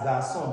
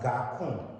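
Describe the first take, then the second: First: The middle consonant is an S sound. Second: The middle consonant is a K sound. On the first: The speaker calls it right. "you pronounce this as garçon" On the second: The speaker calls it wrong. "if there was no cedille in this case, you would have rather pronounced this as garcon"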